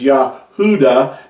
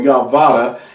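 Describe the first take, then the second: First: The middle sound is an oo vowel. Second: The middle sound is a v consonant. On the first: The speaker calls it right. "it's pronounced as Yahuda" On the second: The speaker calls it wrong. "or Yavada"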